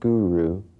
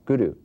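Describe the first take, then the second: First: The R is not tapped with the tongue. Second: The R is a single flicked tongue tap. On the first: The speaker calls it wrong. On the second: The speaker calls it right.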